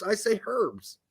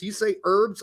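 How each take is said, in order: First: Herbs said as HERBS, with a clear h sound. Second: Herbs said as ERBS, silent h, American way; herbs without h. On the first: Host contrasting American and British herbs, saying HERBS with the h. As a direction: say herbs as HERBS with the h voiced. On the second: Host contrasting American and British herbs, saying ERBS without h. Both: Shown as a demonstration. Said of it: "You say herbs, I say herbs".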